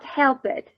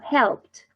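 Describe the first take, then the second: First: The ending is an extra syllable after help. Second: The ending is a short t sound, one syllable. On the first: The speaker calls it wrong. "Not helped" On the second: The speaker calls it right. "No, helped"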